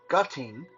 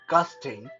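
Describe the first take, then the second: First: The word ends with a 'ting' sound. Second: The word ends with a 'sting' sound. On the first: "all kind of weird uh, pronunciation" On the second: "a lot of people uh, I know like to pronounce that"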